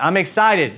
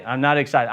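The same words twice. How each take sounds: First: A little brighter and firmer, lifting on excited; psyching himself up in the shower, mildly excited; talking himself up. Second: Low, flat and unconvinced, a touch lower; sleepy morning grumble in the shower; flat deflated. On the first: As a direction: pump yourself up to mean it. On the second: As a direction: mumble it like you don't believe it. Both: Retold or imitated. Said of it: "this would be the process".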